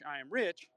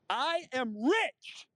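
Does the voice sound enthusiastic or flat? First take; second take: flat; enthusiastic. First: The voice is flat, with no enthusiasm. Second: The voice is lively, with enthusiasm. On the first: The speaker calls it wrong. "I have no enthusiasm in my voice when I state it" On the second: The speaker calls it right. "That's a little better"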